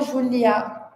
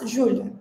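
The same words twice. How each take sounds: First: The final vowel is said fully and clearly. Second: The final vowel is weak and almost disappears. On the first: The speaker calls it wrong. "a gente não fala Júlia" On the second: The speaker calls it right. "esse som de A, ele quase desaparece, ele é bem fraco"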